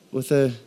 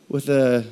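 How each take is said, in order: Both takes have the same delivery.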